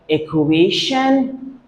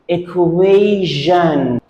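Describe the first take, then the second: First: The middle consonant sounds like 'sh'. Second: The middle consonant sounds like 'zh'. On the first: The speaker calls it wrong. "Should we pronounce it equation?" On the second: The speaker calls it right. "T I O N is pronounced jeune"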